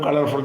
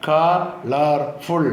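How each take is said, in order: First: Said in the usual way. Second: colourful very slowly as ക, ളർ, ഫുൾ; three separate drawn-out beats in colourful; split into syllables. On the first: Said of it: "എന്ന് ചേർത്ത് പറയും". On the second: Shown as a demonstration. Teacher making three syllables for pupils, slowly split. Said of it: "മൂന്ന് syllable ആക്കാം".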